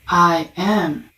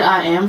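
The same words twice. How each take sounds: First: It is said with deep, felt conviction. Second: It is said flatly, without feeling.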